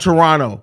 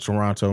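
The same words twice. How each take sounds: First: The second T is dropped. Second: The second T is clearly pronounced. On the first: The speaker calls it right. "you're not supposed to pronounce the second T" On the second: The speaker calls it wrong. "The Canadians always correct me"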